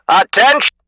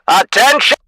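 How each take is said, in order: Both takes have the same delivery.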